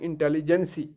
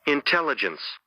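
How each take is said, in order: First: The word ends with an added 'ee' vowel. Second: The word ends with the 's' sound. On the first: The speaker calls it wrong. "इसको लोग पढ़ रहे हैं इंटेलिजेंसी" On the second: The speaker calls it right. "अब आप देखिए इसको क्या पढ़ते हैं"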